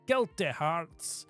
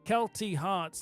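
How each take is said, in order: First: It is said in a Glaswegian accent. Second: It is said in the speaker's ordinary accent.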